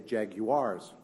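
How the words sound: It is said in a British accent. This is how the UK fans say it. "They say Jaguars"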